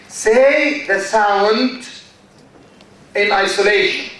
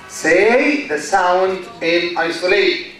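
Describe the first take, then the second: First: "say the sound" drawn out slowly, word by word; slow, deliberate. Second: Said in the usual way. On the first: Shown as a demonstration. Teacher slows down to model the technique for students.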